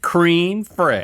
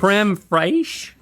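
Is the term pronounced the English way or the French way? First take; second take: English; French. First: It is read out like two English words. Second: It is said with a French pronunciation. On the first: The speaker calls it wrong. "Is that not how you say it? I'm reading it" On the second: The speaker calls it right. "I think it's creme fraiche"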